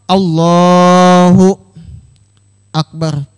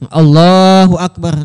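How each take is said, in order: First: There is a pause between the two words. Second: The two words run together with no pause. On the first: The speaker calls it wrong. "wakaf namanya tak kada sah juga" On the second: The speaker calls it right. "langsung namanya"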